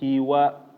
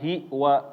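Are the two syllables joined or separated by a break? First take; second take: joined; separated. First: The two syllables are joined without a break. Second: The two syllables are separated by a break. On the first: The speaker calls it right. "tapi hiwa" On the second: The speaker calls it wrong. "jangan hi wa hi wa"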